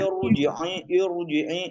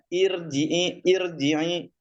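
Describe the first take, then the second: First: The r sound is heavy and thick. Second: The r sound is light and thin. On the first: The speaker calls it wrong. "Jangan sampai irji'i irji'i itu tebal" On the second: The speaker calls it right. "ro kasroh itu tipis dia bacanya"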